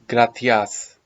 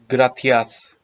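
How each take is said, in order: The two takes are said the same way.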